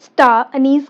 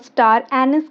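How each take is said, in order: First: It is said with a British pronunciation. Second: It is said with an American pronunciation.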